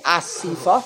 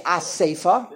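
First: "Asifa" with an ee in the middle; popular pronunciation. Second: "Asefa" with an ay in the middle; avoided pronunciation. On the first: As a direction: say "Asifa" as a-SEE-fa. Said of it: "is makbid to say Asifa". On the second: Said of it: "and not say Asefa". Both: Shown as a demonstration.

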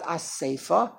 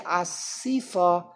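First: "Asefa" slow, with an ay in the middle; avoided pronunciation. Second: "Asifa" slow, with an ee in the middle; popular pronunciation. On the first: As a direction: say "Asefa" slowly as a-SAY-fa. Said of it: "not Asefa". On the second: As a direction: say "Asifa" slowly as a-SEE-fa. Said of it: "we say Asifa". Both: Shown as a demonstration.

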